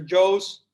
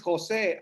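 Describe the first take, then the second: First: The name is said like the word 'Joes'. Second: The name is said in its own way, 'Jose'. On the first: This is how other people say the name. The speaker calls it wrong. "most people call me mister Joe's" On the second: This is how the name is really said. The speaker calls it right. "no, no, no, my name is Jose"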